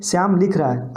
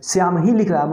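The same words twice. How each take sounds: First: Said in the usual way. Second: ही carries the weight, falling away after it; stress on ही. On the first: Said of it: "दूसरा उदाहरण देखिए". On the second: Shown as a demonstration. Teacher showing what the added particle does, stress on ही. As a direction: lean on the word ही. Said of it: "एक विशेष बल की उत्पत्ति होगी".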